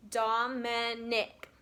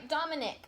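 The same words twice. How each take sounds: First: "Dominic" slowly as dom, i, nic; each syllable of "Dominic" set apart; split into syllables. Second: Said in the usual way. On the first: Shown as a demonstration. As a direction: stretch "Dominic" into three beats. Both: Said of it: "has how many syllables".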